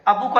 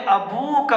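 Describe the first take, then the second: First: The vowel after the b is short. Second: The vowel after the b is long. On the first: The speaker calls it wrong. "नहीं होगा" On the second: The speaker calls it right. "वाव के साथ"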